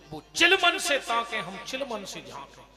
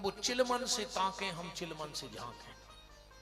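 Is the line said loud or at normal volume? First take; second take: loud; normal. First: The line is said much louder. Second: The line is said at normal volume.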